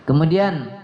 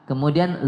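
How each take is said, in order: Both takes have the same delivery.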